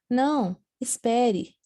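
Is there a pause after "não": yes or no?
yes. There is a pause after não.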